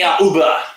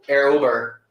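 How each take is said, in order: First: It is said in a put-on German accent. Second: It is said in the speaker's plain accent.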